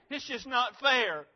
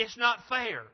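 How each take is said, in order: First: Self-pitying whine, higher and drawn out; slow, higher mock whine of injustice; whiny complaint. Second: Mildly angry protest, a bit raised; acted flash of resentment. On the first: Preacher mimics a whiner feeling sorry for himself, whiny complaint. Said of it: "become a whiner and complain and feel so sorry". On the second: Preacher voices someone turning angry over unfairness, angry protest. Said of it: "They become angry".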